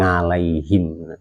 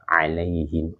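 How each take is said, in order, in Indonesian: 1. Kata ini diawali dengan bunyi sengau ng. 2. Kata ini diawali tanpa bunyi sengau. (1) "bukan ngalaihim, itu yang nggak boleh" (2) "alaihim, bukan ngalaihim"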